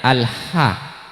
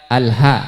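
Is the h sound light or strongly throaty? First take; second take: throaty; light. First: The h is a strong sound from the throat. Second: The h is a light, plain breath. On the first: It means all praise belongs to God. The speaker calls it right. "padahal hurufnya Alha. Ha gitu tengah tenggorokan" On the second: It means all humiliation belongs to God. The speaker calls it wrong. "ringan mada ananda akan bacana"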